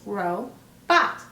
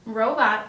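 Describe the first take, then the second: First: "ro-bot" with a clear break, ro, then bot; split into syllables. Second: Said in the usual way. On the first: Shown as a demonstration. Teacher demonstrates two syllables, "ro-bot" pulled apart. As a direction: say "ro-bot" as two separate beats, second one punched. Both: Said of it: "Robot also has two syllables".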